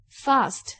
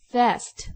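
First: "fast" with the British long "ah", fahst; teacher models "fast" the British way; British pronunciation. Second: "fast" with the American flat "a", as in "cat"; teacher models "fast" the American way; American pronunciation. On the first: Teacher demonstrating accents for class, British "fast". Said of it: "英国英语". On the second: Teacher demonstrating accents for class, American "fast". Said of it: "美国英语". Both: Shown as a demonstration.

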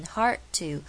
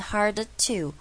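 First: "hard to" with the d left unreleased, "har-to"; D省略. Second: "hard to" with the d released, "har-duh-to"; over-pronounce the d in "hard" before to; D念出来. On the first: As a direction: drop the d of "hard" straight into to. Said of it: "D是被我省略的". (hard to不念出D) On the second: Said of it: "我不是念hard to". (hard的D刻意念出来再接to) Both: Shown as a demonstration.

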